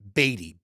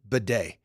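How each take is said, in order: First: The surname is said as BAY-dee. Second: The surname is not said as BAY-dee. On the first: This is the form in the team's official guide. "in the Broncos official pronunciation guide as Beatty, B A Y hyphen D E E" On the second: This is the form the player himself requested. "requested that his name be pronounced Bidet at the request of the player"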